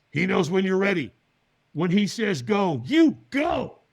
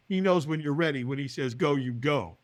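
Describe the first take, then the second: First: Emphatic, portentous pronouncement rising on the last words; retold whisper, voiced aloud. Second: Understated echo, falling away at the end; puzzled repeat. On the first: Stranger passes on advice in his ear, retold whisper. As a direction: deliver a mysterious instruction with weight, unwhispered. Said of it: "he whispers in my ear". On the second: Retold or imitated. Man mulls the stranger's cryptic advice, puzzled repeat. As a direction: turn the words over as if thinking aloud. Puzzles over the words he heard.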